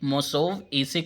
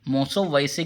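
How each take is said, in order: First: No 'v' sound comes before the final syllables. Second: A 'v' sound comes before the final syllables. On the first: The speaker calls it right. "मोसोव ऐसे करेंगे तो ज़्यादा शुद्ध रहेगा" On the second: The speaker calls it wrong. "मोसोव वैसे की बजाय"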